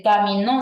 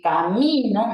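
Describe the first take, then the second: First: "camino" said with the stress on final NO; ca-mi-NÓ, as a palabra aguda; stress on last syllable. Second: "camino" with the stress on MI; ca-MI-no, as a palabra grave; stress on middle syllable. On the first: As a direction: land on the end of "camino". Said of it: "camino sí". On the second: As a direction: lean on MI in "camino". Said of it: "como si fuera una grave". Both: Shown as a demonstration.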